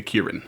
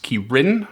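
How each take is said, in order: First: Kirin with a bit of weight on each syllable; stress on both syllables. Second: Kirin with the weight on its second syllable; stress on second syllable. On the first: Host picks his own pronunciation, Kirin stressed on both syllables. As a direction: give both syllables of Kirin some emphasis. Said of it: "a bit of emphasis on both syllables". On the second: Host cites the wiki's pronunciation, Kirin stressed on the second syllable. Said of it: "with the emphasis on the second syllable". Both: Shown as a demonstration.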